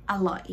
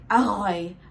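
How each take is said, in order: First: The r is replaced by a clear l sound. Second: The r is a throaty sound from the back. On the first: The speaker calls it right. "So you can just use the L sound like อร่อย" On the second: The speaker calls it wrong. "Don't say it like อร่อย, อร่อย, like this"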